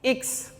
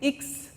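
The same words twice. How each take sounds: First: It ends with a 'ks' sound. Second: It ends with a 'ks' sound.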